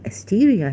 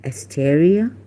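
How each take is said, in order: First: "Asteria" with a long EE in the middle; local pronunciation. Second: "Asteria" with an EH in the middle; name as written. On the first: Telling Miss Desai what they call her here, local pronunciation. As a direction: say "Asteria" as as-TEE-ria. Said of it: "But they call you Asteria here". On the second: Asking Miss Desai about her name, name as written. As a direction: say "Asteria" as as-TEH-ria, questioning. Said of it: "isn't your name". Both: Retold or imitated.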